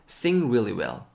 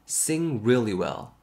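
Both takes have the same delivery.

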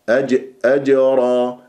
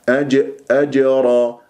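Both takes have the same delivery.

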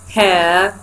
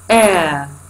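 First: The h sound is pronounced at the start. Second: The h sound is dropped at the start.

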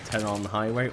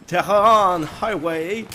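First: It is said in the speaker's normal accent. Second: It is said in an exaggerated put-on accent.

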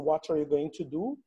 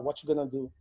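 First: Every word is said fully and separately. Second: The words are run together and contracted quickly.

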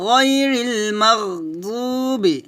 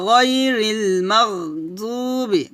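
No difference in how they are said.

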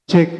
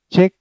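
First: The voice has an echo effect added. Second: The voice sounds dry without any echo.

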